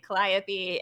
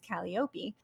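First: It uses the common mainstream pronunciation. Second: It uses the original Greek pronunciation. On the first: "what most people would probably say" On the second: "closer to the Greek, which is"

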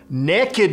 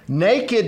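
First: The word is said the Southern way, 'nekkid'. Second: The word is said the standard way, 'nay-kid'. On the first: Having no clothes on and being up to something. "Naked means you don't have any clothes on and you're up to something" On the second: Simply having no clothes on. "Naked means you don't have any clothes on"

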